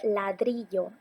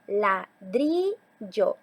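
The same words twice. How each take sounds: First: Said in the usual way. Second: "ladrillo" very slowly as la... DRIII... llo; teacher splitting "ladrillo" to show the stressed DRI; stress on middle syllable. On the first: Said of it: "ejemplo de palabra grave". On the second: Shown as a demonstration. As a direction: stretch and lean on DRI in "ladrillo". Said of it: "la sílaba que tiene más intensidad".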